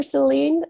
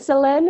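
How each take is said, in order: First: "Celine" as the second option; asking a name's pronunciation. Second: "Selene" as the first option; asking a name's pronunciation. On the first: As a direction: offer "Celine" as the other way to say the name. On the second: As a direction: offer "Selene" as one way to say the name. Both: Shown as a demonstration. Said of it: "Is it Selene or Celine?".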